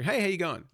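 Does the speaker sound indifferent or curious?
indifferent. It sounds indifferent, like a mere formality.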